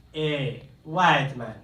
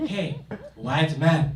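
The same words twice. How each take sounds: First: Plain call-out. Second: Slow, drawn-out, condescending call; like to an idiot. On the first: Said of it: "heard somebody call out". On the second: Stranger in Ghana calling again, slow and condescending. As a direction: spell it out like he's talking to a fool. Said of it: "says it again like I'm an idiot". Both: Retold or imitated.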